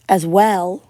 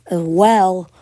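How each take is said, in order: Both takes have the same delivery.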